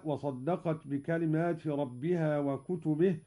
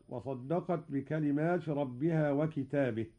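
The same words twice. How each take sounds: First: وكتبه in the plural, wa kutubihi; standard reading. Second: وكتابه in the singular, wa kitabihi; Qalun reading. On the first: Teacher recites the usual reading, kutubihi. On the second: Teacher demonstrates Qalun's singular reading, kitabihi. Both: Shown as a demonstration. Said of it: "قرأ قالون بالإفراد".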